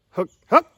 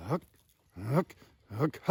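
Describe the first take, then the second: First: HOOK HOOK with the second jumping high and loud; changed voice inflection. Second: Single HOOK syllables, spaced apart; slow, separate HOOK grunts like call practice; slow clucking demo. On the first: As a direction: pop the second HOOK up to a higher note. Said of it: "just changing the voice inflection". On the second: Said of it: "let's give you a slow". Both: Shown as a demonstration.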